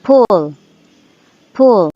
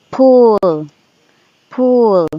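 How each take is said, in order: First: Short-vowel pull. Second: Long-vowel pull. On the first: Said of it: "This is the short U". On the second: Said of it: "this is the long U". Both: Shown as a demonstration.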